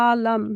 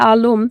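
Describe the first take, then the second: First: The name is said in the original Arabic way. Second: The name is said in the usual Bangladeshi way. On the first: "correct করে শব্দটা হচ্ছে আলাম" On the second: "আমরা বাংলাদেশে যেটাকে বলি হচ্ছে আলম"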